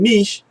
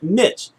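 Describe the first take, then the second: First: The word does not rhyme with itch. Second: The word rhymes with itch. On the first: This is the newer pronunciation. "younger folks got in there and they started saying niche" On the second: This is the older pronunciation. "like N I C H, like niche"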